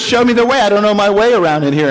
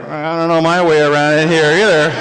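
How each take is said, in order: First: Lightly voiced policeman, slightly raised pitch; brisk request from a policeman character. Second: Lower-pitched reply in character; low, deadpan character aside. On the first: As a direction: policeman admitting he's lost, lightly acted. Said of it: "the policeman goes". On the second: Acted. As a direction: drop the voice for a sheepish admission.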